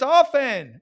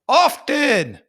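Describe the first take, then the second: First: The T sound in the middle is silent. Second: The T sound in the middle is pronounced. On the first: The speaker calls it right. "you don't say the T and often. It is silent" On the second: The speaker calls it wrong. "He says the T and often"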